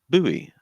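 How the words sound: The word is said the American way. "Americans would say buoy"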